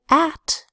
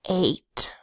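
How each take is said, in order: First: The vowel is a short A sound. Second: The vowel is a long A sound. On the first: The speaker calls it wrong. "You don't make the short A sound" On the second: The speaker calls it right. "you make the long A sound"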